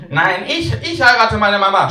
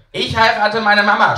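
First: High, loud rival yell; a second boy outshouting the first; shouting child. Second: Put-on high, loud child's yell; a boy bragging at full volume; shouting child. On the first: Acted. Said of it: "schreit Torben". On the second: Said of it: "schreit Siegwe".

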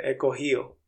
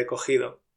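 First: "cogido" said as cogío, d dropped; casual Andalusian cogío; relaxed cogido. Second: "cogido" with the d fully said; careful cogido. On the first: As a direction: drop the d in "he cogido". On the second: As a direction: say every sound of "he cogido". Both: Shown as a demonstration. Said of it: "en lugar de he cogido".

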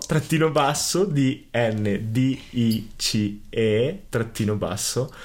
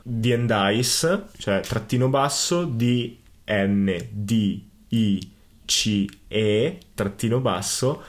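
First: Slow spelling again, letters drawn out; dictating. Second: Slow letter-by-letter spelling; dictating. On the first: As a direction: spell each letter slowly for listeners. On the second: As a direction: spell out D N D I C E slowly. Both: Shown as a demonstration. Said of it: "lo ripeto".

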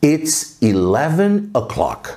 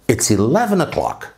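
First: Slow, drawn-out English phrase; slow model. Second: Said in the usual way. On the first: Shown as a demonstration. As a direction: model it slowly for repetition. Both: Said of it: "vamos treinar".

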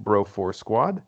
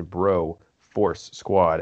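First: Said in the usual way. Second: "Bro Force Squad" slowly, each word set apart; three separate words. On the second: Shown as a demonstration. Host telling listeners what to type, "Bro Force Squad" word by word. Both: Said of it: "as three separate words".

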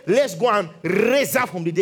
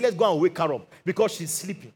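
First: Dramatic emphasis with a rolled "raise"; mock grand declaration. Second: Said in the usual way. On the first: Preacher voices what Jesus didn't say, mock grand declaration. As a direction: make it a big, showy announcement. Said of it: "He didn't say". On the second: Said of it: "He said".

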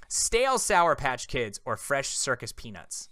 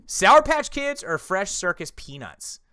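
First: "Stale" drawn out at the front, slow question; slow, deliberate correction stressing "Stale"; corrected question. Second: Said in the usual way. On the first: Real, not acted. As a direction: lean on "Stale" as the corrected word. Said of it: "I, I asked that". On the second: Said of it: "completely wrong".

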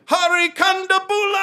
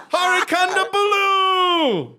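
First: Big ringing intro, last syllable held; John Oliver. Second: "Kondabolu" high and drawn out, ending in a long "ooh"; high intro call, "Kondabolu" ending on "ooh"; corrected name pronunciation. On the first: Acted. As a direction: belt out the name like introducing a comic. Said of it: "yeah, he's like". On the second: Shown as a demonstration. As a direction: announce "Kondabolu" with the last syllable a held "loo". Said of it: "Ooh, it's an ooh".

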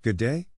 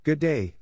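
First: Dry, rising query on "day"; dry questioning echo. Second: High-pitched greeting that falls at the end; confident greeting. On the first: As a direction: echo the greeting with a rising end. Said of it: "and answered dryly". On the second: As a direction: greet her boldly, pitch up. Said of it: "with a bold and confident step, saying". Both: A narrator's reading.

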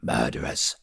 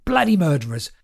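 First: Low accusation. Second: Manic accusation. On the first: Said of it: "He shook the bags of stale bread". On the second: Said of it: "shouting at children". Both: A narrator's reading.

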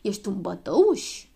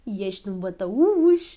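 First: "bătăuș" drawn out with a rise; shouted question. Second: "bătăuș" stretched out loud as an exclamation; repeated taunt. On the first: Girl taunting the boy from the door, "bătăuș" rising slowly. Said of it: "strigă ea". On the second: Girl back at the door to tease, "bătăuș" loud and drawn out. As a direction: declare "bătăuș" slowly and loudly. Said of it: "repetă ea". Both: A narrator's reading.

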